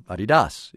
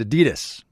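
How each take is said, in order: First: "Adidas" said the original German way, AH-dee-dahs; purist's pronunciation. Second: Said in the usual way. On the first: Shown as a demonstration. Radio host corrects to the purist's version, "Adidas" as AH-dee-dahs. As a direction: say "Adidas" with open vowels and a final "dahs". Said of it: "if you're a purist". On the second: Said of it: "or Adidas if you're a purist".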